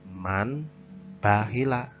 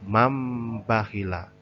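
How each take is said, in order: First: The sound before the b is an n. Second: The sound before the b is an m. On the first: The speaker calls it wrong. "bukan man bakhila" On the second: The speaker calls it right. "nun di sini disamarkan dengan huruf mim"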